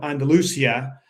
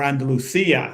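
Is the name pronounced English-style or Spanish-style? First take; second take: English-style; Spanish-style. First: The name is pronounced in an English way. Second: The name is pronounced in a Spanish way.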